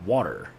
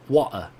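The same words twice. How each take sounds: First: Said in the usual way. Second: "Water" with the final r dropped to "ah"; r-less pronunciation. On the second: Shown as a demonstration. Streamer answering a chat request to say water, r-less pronunciation. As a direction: say "Water" ending in an open "ah", no r. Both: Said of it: "can you say water".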